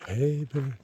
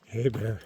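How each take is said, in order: First: Higher, louder bear call; scaring off a bear. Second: Raised bear call. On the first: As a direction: shout it out to scare a bear. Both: Real, not acted. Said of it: "Bear call".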